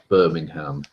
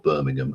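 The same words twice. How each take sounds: First: It is said the American way, with a full 'ham'. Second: It is said the British way, with a reduced ending. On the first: The speaker calls it wrong. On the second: The speaker calls it right.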